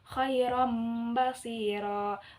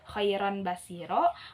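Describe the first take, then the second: First: An m sound comes before the b. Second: An n sound comes before the b. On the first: "maka menjadi mim" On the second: "yang tadinya dibacanya khairan basiro"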